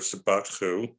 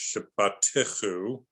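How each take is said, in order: First: No vowel is voiced in the middle. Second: A short vowel is voiced in the middle. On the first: The speaker calls it wrong. "instead of" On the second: The speaker calls it right. "the indicators tell us that you should pronounce it as"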